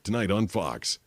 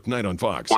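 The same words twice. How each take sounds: First: It is said at a moderate, measured pace. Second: It is said very quickly and clipped. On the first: It fits the allotted time slot. The speaker calls it right. "So you have to be like, ... one point eight seconds" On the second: It falls well short of the allotted time slot. The speaker calls it wrong. "you don't want to go ... because that's like one"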